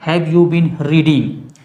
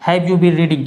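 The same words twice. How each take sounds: First: Slow dictation. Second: Said in the usual way. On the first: Shown as a demonstration. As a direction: Have you been reading said very slowly, word by word. (बहुत धीरे, शब्द-शब्द बोलकर) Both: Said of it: "क्या तुम दस बजे से पढ़ रहे हो?".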